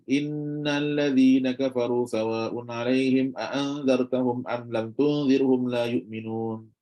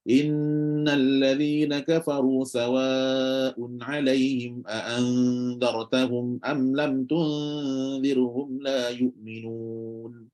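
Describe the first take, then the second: First: The nasal sounds are held too briefly. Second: The nasal sounds are held long and evenly. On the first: The speaker calls it wrong. "tak cukup mendengar dia. Tak cukup" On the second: The speaker calls it right. "nampak cukup dengar, konsisten sama punya dengar"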